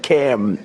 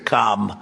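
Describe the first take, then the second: First: The vowel is short and flat, as in 'cam'. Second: The vowel is long and open, as in 'calm'. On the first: It is the first syllable of this guest's name. The speaker calls it right. "It's Cam, right?" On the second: It is the first syllable of another politician's name. The speaker calls it wrong. "as opposed to Calm. Well, we don't like Calm"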